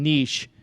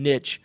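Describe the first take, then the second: First: It is said not rhyming with a rude word. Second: It is said rhyming with a rude word. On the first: This is the newly adopted form. The speaker calls it right. "so many pe- other people say niche" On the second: This is the old habit being dropped. The speaker calls it wrong. "it rhymes with the bad word"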